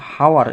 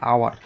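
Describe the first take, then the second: First: The word starts with an audible h sound. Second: The word starts with a vowel, no h. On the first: The speaker calls it wrong. "আমরা কিন্তু হাওয়ার এরকম বলছি না" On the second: The speaker calls it right. "আমরা কি বলছি? আওয়ার।"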